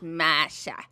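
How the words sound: The r after the first vowel is dropped. "Everyone says Masha. Because of their crazy Boston accents"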